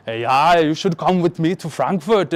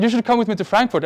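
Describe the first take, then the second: First: Put-on half-hearted German accent, a bit Arnold; attempted German accent. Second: Said in the usual way. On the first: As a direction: try a German accent and not quite get it. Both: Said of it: "I can't do a German accent".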